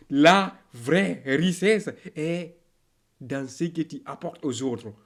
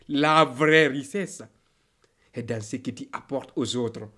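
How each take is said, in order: Both takes have the same delivery.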